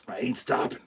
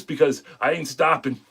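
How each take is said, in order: First: Repeated low and much softer, almost to himself; a soft murmured promise to himself; quiet repeat. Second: Said in the usual way. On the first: Real, not acted. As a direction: drop the voice and say it to yourself. Quiet repeat after long pause.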